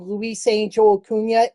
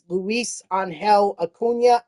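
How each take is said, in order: First: The name is pronounced the English way. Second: The name is pronounced the Spanish way. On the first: The speaker calls it wrong. "I've been saying it wrong all year" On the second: The speaker calls it right. "It is not. It is"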